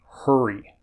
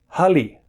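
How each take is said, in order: First: The middle consonant is an R sound. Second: The middle consonant is an L sound. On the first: "now I just said that correctly, er" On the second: "I'm going to say it now with a l"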